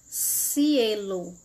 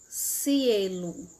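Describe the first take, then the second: No difference in how they are said.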